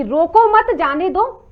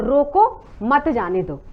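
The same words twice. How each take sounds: First: "रोको मत" run together, then "जाने दो"; group "रोको मत" as one phrase, then say "जाने दो"; comma after मत. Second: "रोको", a clear pause, then "मत जाने दो"; comma after रोको. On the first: Anchor showing panelist the comma difference, "रोको मत" kept together. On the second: Anchor showing panelist the comma difference, pausing after "रोको". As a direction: break firmly after "रोको" before "मत जाने दो". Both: Shown as a demonstration. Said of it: "comma का अंतर".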